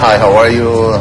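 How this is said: It is said in an American accent. "American accent lebih ke lebih ke biasa"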